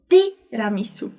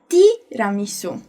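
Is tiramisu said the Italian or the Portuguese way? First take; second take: Italian; Italian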